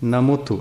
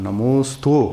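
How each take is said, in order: First: The s is dropped, giving a doubled t. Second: A clear s sound comes before the t. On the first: The speaker sounds like a small child. The speaker calls it wrong. "ಸಣ್ಣ ಹುಡುಗರ ಹಂಗೆ ನಮೋತ್ತು" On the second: The speaker sounds like a grown-up. The speaker calls it right. "ಹಿಂಗೆ ಅನ್ಬೇಕು"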